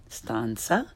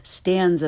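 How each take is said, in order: First: "stanza" with open ah and ts-like z; correct Italian pronunciation. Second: "stanza" as English, with short a and z; learner's mispronunciation. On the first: Teacher corrects beginners, "stanza" with Italian ah. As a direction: say "stanza" as STAHN-tsah, softer. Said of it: "follow it with the correct pronunciation". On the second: Teacher shows beginners' mistake, English "stanza". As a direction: say "stanza" starting like stand. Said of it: "first the way most people". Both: Shown as a demonstration.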